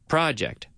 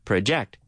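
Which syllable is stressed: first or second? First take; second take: first; second. First: The stress is on the first syllable. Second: The stress is on the second syllable. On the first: It is the noun. "And as a noun, the project" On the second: It is the verb. "if you stress it over the second syllable, project, you mean, in other word, the verb"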